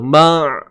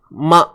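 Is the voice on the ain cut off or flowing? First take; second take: flowing; cut off. First: The voice keeps flowing slightly through the sound. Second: The voice is held and cut off abruptly. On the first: The speaker calls it right. "biar ada berjalan sikit suara kita tu" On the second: The speaker calls it wrong. "Kalau tahan macam mana? Ma' ma' ma' macam tu"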